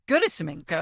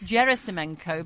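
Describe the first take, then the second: First: The G is pronounced hard. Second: The G is pronounced soft. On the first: "was going Churyumov Gerasimenko. It was like a hot" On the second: "I've been told it's a soft G"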